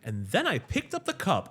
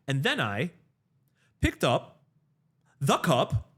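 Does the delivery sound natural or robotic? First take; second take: natural; robotic. First: It is said with a natural, human cadence. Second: It is said with a stilted, machine-like cadence. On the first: "as opposed to saying like" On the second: "it'll be like, ... no one speaks like that"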